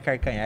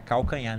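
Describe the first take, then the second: First: The first syllable ends with an R sound. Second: The first syllable ends with an L sound. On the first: It is the regional Cuiabá way of speaking. The speaker calls it wrong. "não é carcanhar" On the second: It is the standard form. The speaker calls it right. "é calcanhar"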